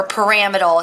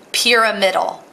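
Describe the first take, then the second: First: "pyramidal" said as puh-RAM-id-al; alternative pronunciation. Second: "pyramidal" said as PEER-uh-MID-al; pronunciation variant. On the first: Teacher giving others' version, "pyramidal" as puh-RAM-id-al. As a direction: stress the second syllable of "pyramidal", puh-RAM-id-al. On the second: Teacher naming the shape, "pyramidal" as PEER-uh-MID-al. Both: Shown as a demonstration. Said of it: "how some people pronounce it".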